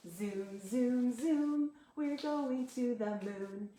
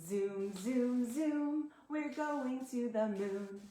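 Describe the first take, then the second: Both takes have the same delivery.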